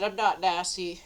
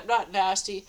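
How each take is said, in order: First: Said in the usual way. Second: Said through a laugh; laughing at the absurd insult. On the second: Shown as a demonstration. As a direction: repeat it with a giggle on NOT. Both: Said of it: "And then I said".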